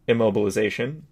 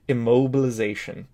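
First: It is read quickly in a flat monotone. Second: It is read more slowly and less flatly. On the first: The speaker calls it wrong. "that was flying through in a monotone" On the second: The speaker calls it right. "I need you to read a little slower"

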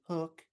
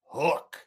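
First: The word is said softly and casually. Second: The word is said loudly and forcefully. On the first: The speaker calls it wrong. "You don't say Hook" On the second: The speaker calls it right. "You say it from your sternum, right?"

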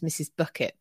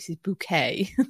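First: The surname sounds like the word bucket. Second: The surname sounds like the word bouquet. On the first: This is the name's ordinary form. "her name's Mrs. Bucket" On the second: The character uses a posh form of her own name. "she pronounced it Mrs. Bouquet"

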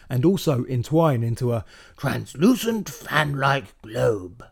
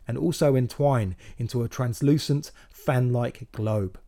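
First: Said in a put-on nature narrator voice. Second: Said in the speaker's own normal voice.

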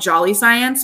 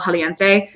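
First: The name sounds like the English words jolly science. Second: The name is said as one Spanish-sounding word. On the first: This is the local nickname people use. The speaker calls it wrong. "we call it around here, we call it Jolly Science, but it's not how you say it" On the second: This is the proper name of the place. The speaker calls it right. "It's El Jaliense"

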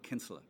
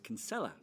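First: The name is said in an Irish way, run together. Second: The name is said in an American way. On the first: "in Ireland, they say Kinsella" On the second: "the American way to say it is Kinsella"

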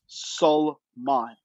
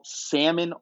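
First: The L sound is clearly pronounced. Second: The L sound is left out. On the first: The speaker calls it right. "It's not that hard. It's Salman" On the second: The speaker calls it wrong. "Do people just ignore the L in your name"

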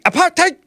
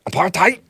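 First: The word is said in a German-like accent. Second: The word is said in a plain accent. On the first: "Can I say it more Nazi?" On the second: "I think is how it's pronounced"

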